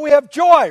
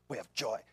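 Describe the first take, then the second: First: It is said in a bright, joyful tone. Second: It is said in a grim, serious tone.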